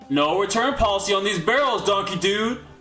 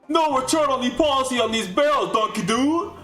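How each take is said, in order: First: It is said in his normal voice. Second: It imitates the character's voice from the Donkey Kong TV show.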